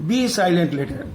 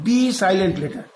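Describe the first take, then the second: No difference in how they are said.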